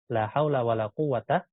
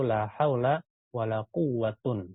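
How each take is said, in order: First: The last word ends in a short 'a'. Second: The last word ends in 'un'. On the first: "Pertama dia kita fathah" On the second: "yang ketiga kita baca rofa marfu"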